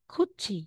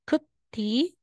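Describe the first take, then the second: First: The middle consonant is a ch sound. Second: The middle consonant is a plain t sound. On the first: The speaker calls it right. "magiging kuchi" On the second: The speaker calls it wrong. "Instead na sasabihin mong kuti"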